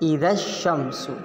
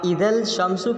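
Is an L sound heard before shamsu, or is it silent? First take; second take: silent; heard. First: The L is silent and the sh is doubled. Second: An L sound is clearly heard before shamsu. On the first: The speaker calls it right. "जैसे इदश शम्सु" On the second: The speaker calls it wrong. "आप इदल शम्सु कहेंगे तो गलत हो जाएगा"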